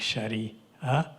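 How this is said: It is said with another American pronunciation. The speaker calls it wrong. "or Islamic Sharia"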